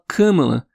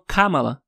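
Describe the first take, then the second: First: The first vowel is nasalized. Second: The first vowel is oral, not nasalized. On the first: This is how it is commonly said in Brazil. "No Brasil é mais natural fazer esse anasalamento" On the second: This is how the media in the United States says it. "sem anasalar o primeiro A"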